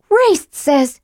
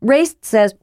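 First: High mocking mimic; mocking imitation. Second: Said in the usual way. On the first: A narrator's reading. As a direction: mimic him with scorn. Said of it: "Tika mimicked him". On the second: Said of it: "he said lamely".

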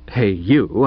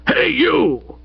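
First: Said in the usual way. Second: High, drawn-out holler; booming shout. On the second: A narrator's reading. Old Stoker hails the butler, booming. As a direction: boom it out to summon someone. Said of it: "boomed old Stoker".

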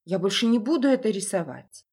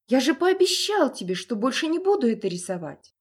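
First: Put-on raised, earnest young boy voice; pleading boy. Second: High, loud panicked plea; beg, near tears; frightened pleading. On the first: Frightened boy pleads with father. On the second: Acted.

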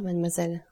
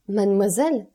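First: Said in the usual way. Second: Indignant exclamation. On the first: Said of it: "reprit Maximilien". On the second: A narrator's reading. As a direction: cry out MADEMOISELLE with a swooping rise. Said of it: "s'écria Valentine".

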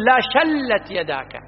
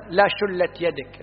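First: شلت said shallat with fatha; slow, careful shallat yadaka; correct vowel. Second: لا شلت with shulla, dammah on the first letter; شلت said shullat, the wrong way; slow demo of the mistake: shullat; wrong vowel. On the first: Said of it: "مفتوح الفاء والعين". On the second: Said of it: "غلط". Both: Shown as a demonstration.

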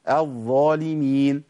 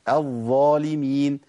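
First: الظالمين again with the ẓ held long, slowly; flowing ẓ repeated. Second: الظالمين with the ẓ drawn out, slowly; flowing ẓ. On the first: The teacher repeats الظالمين with a drawn ẓ. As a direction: stretch the ẓ in الظالمين. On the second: A teacher demonstrates the flowing ẓ in الظالمين. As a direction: let the sound run on الظالمين. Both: Shown as a demonstration. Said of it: "لازم أجري الصوت".

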